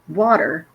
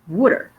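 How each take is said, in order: First: It is said with standard American vowels. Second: It is said in a Philadelphia accent.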